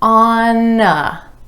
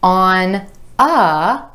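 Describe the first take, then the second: First: The N links over onto the following vowel. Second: The two words are said separately.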